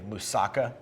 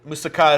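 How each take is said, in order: First: The stress falls before the last syllable. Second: The stress falls on the last syllable. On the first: This is how Americans say it. "most Americans say moussaka" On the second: This is how Greeks say it. "the Greek, you know, the emphasis on the last word"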